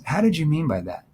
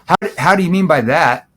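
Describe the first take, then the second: First: It sounds puzzled and unsure. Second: It sounds mean and aggressive.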